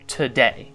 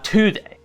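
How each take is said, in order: First: The stress is on the second syllable. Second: The stress is on the first syllable.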